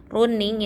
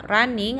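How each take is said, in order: First: "running" as roo-ning; oo vowel in "running", as written; spelling pronunciation. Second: "Running" as rah-ning; U becomes A. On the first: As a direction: read "running" with an Indonesian u. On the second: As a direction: say "Running" with an a vowel. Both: Shown as a demonstration. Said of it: "U-nya diganti A".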